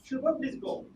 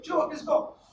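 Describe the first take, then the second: First: It is said in a calm, gentle tone. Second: It is said in a sharp, forceful tone. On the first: There is no hurry to leave. "Then Shubham will go smoothly" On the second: The listener must leave right away. "then Shubham will go fast"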